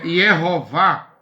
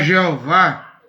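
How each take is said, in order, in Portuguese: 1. O nome começa com um som de y. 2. O nome começa com um som suave de zh. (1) "é Yehová" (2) "Não é Jeová"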